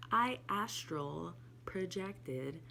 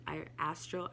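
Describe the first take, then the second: First: "astral projected" said very slowly, word by word; slow right down to get "astral projected" out; "I astral projected" spelled out slowly after a stumble; slow careful try. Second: Said in the usual way. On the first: Shown as a demonstration. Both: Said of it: "I can never say that so fast".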